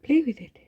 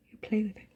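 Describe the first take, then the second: First: "Play" said higher and louder, falling; suggestive reread. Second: Said in the usual way. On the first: Shown as a demonstration. Rereading the fanfic line for viewers, louder and higher on "Play". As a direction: lean on "Play" to make it sound dirty. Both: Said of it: "It sounds wrong".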